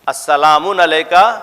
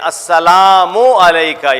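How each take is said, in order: First: The first word ends with an added n sound. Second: The first word ends in a vowel, no n. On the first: The speaker calls it wrong. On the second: The speaker calls it right.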